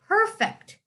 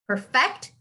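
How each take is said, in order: First: The stress is on the first syllable. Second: The stress is on the second syllable. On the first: It is used as an adjective meaning flawless. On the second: It is used as a verb meaning to make flawless.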